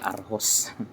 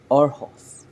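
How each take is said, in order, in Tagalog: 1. Nagsisimula ito sa 'ah' at nagtatapos sa 'hus'. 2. Nagsisimula ito sa 'oh' at nagtatapos sa 'hos'. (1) "Kung bibigkasin natin sa Tagalog" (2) "Pero ang basa pala dito"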